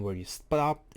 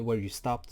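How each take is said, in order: First: Real crack in the voice on "stopped". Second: Said in the usual way. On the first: Real, not acted. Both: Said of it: "sorry, my voice cracked".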